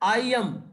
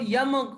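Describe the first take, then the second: First: The two words are said separately. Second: The two words blend into one syllable.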